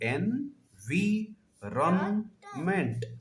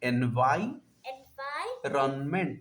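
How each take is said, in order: First: The second syllable is said as 'vee'. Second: The second syllable is said as 'vye'. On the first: The speaker calls it wrong. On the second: The speaker calls it right.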